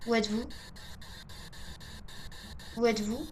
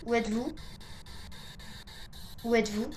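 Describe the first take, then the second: No difference in how they are said.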